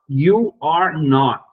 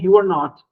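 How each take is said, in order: First: Each word is stressed and said separately. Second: The words are said quickly, run together. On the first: "Você marca bem as palavras, está dando uma ênfase" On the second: "com mais rapidez, com mais fluidez ... Tudo junto"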